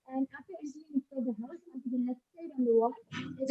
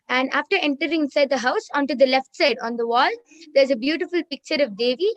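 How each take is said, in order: First: Muffled and faint, as if covered. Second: Louder. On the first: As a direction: speak through a hand over your mouth. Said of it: "your audio is getting muffled". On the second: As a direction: clear and a little louder. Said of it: "repeat a little louder". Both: Real, not acted.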